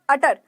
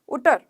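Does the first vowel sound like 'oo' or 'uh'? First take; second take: uh; oo. First: The first vowel is a short 'uh' sound. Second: The first vowel is an 'oo' sound. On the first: The speaker calls it right. "अब यहाँ पर अटर है" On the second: The speaker calls it wrong. "अगर मैं अटर को उटर बोल देती तो"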